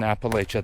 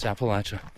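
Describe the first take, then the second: First: The word gets an outsider's pronunciation. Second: The word gets the local mountain pronunciation. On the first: A visitor from elsewhere said it. The speaker calls it wrong. "you won't say it right" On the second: This is how people in the region say it. The speaker calls it right. "it's Appalachia"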